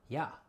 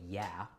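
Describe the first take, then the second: First: It is said like German 'ja', an open 'ya'. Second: It is said with an English 'yeah' vowel. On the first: "their word for yes is J A" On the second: "we say yeah"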